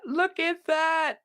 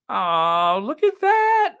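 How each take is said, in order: First: Slow, high, softened admiration; tender awe. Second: High, loud gushing delight; delighted squeal. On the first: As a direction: linger on it lovingly. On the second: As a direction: squeal with joy at a sweet photo. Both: Real, not acted. Delighted reaction to family photo.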